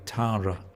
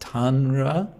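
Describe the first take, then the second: First: The N sound is nearly dropped. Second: The N sound is clearly pronounced. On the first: "it's pronounced more like Tara" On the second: "there's tan"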